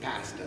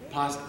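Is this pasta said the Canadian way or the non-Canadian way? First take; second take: Canadian; non-Canadian. First: It is said in a Canadian pronunciation. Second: It is said in a non-Canadian pronunciation. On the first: "they say pasta" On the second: "wouldn't say pasta"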